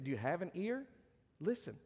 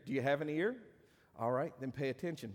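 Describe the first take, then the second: First: Said in the usual way. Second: Dry mock question to the congregation; sarcastic. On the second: Shown as a demonstration. Preacher teasing his church with sarcasm. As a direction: tease them, deadpan, as if they might lack ears. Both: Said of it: "that's sarcasm".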